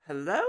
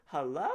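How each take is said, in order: First: Louder rising hello; louder call. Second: Said in the usual way. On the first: Acted. Calling into the governor's empty office, louder.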